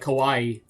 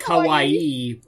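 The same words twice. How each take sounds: First: The word is said quickly, syllables run together. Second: The word is said slowly, each syllable distinct. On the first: "if you say it quick" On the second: "normally it's more pronounced like"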